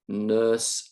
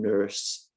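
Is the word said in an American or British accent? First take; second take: British; American. First: It is said in a British RP accent. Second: It is said in a General American accent. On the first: "I'm going to read uh, the words with my accents, which is R P" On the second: "with a general American accent"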